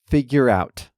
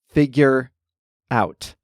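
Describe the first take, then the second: First: The two words blend together like one word. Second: The two words are said with a gap between. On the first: The speaker calls it right. "The R sound at the end of figure leads right into the ow sound in out" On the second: The speaker calls it wrong. "it sounds strange to say them as two distinct words"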